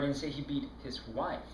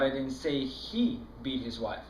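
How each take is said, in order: First: The word 'wife' carries the main stress. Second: The word 'he' carries the main stress. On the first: It was someone other than his wife. "No, it was his girlfriend he beat" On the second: Someone else did the beating. "No, I was that other guy that was beating his wife"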